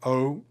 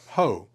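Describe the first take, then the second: First: The sound begins directly with the vowel. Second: The sound begins with an H sound. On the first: "if the omicron doesn't have it over it" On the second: "If it has it over it"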